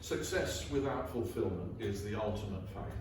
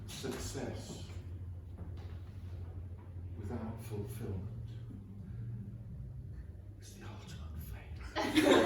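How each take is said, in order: First: It is read in a plain, normal way. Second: It is read in a romantic, loving way.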